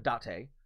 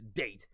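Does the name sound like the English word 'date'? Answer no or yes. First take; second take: no; yes. First: It is said unlike the English word date. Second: It is said like the English word date. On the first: "Learned how to say that properly" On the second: "we're going to go back to saying date"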